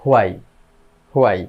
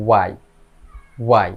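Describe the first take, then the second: First: হোয়াই said "hu-ai" with a sounded h; habitual mispronunciation. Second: ওয়াই said "wai", no h; correct pronunciation. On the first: Teacher shows how learners say it, h-initial হোয়াই. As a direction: open হোয়াই on h before gliding to "ai". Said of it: "আমরা এইভাবে উচ্চারণ করি". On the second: Teacher models it for learners, h-less ওয়াই. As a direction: begin ওয়াই straight on the w. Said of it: "সঠিক উচ্চারণ হবে". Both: Shown as a demonstration.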